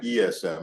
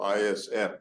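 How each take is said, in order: First: The letters are named in the French way. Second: The letters are named in the English way.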